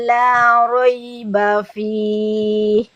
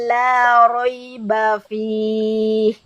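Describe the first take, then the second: The two takes are said the same way.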